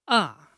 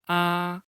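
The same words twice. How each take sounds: First: The pitch falls sharply from high to low. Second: The pitch stays high and level throughout. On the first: "Falling tone. The pronunciation is descending" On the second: "Flat tone, its pronunciation is flat. The voice is in the highest position"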